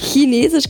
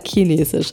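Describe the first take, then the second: First: It is said in a standard German accent. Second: It is said in a southern regional accent. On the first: "Chinesisch würde man jetzt auch wieder hochdeutschen. ... Chinesisch kann ich nicht sagen" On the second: "ich sage Chinesisch"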